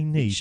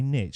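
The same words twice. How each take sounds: First: It is said with a British pronunciation. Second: It is said with an American pronunciation.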